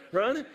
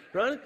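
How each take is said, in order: Both takes have the same delivery.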